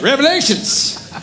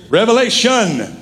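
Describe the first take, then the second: First: High-pitched mocking "Revelations" with an S on the end; "Revelations" in a put-on high voice, plural S; mock slip-up. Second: "Revelation" raised a little, closing cleanly on "shun"; correct, no S. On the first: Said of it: "I think a few of you slipped". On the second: Shown as a demonstration. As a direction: model "Revelation" with no S at the end. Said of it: "No S".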